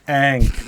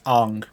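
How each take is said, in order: First: The name has its usual, familiar pronunciation. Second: The name has the film's different pronunciation. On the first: "the announcer refers to it like like it's like Aang" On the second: "they pronounce it differently in that movie"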